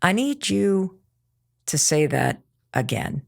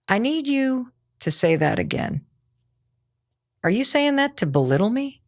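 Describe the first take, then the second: First: Slow firm demo. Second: Said in the usual way. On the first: Shown as a demonstration. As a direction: lay it down slowly and coolly, no heat. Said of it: "I love this".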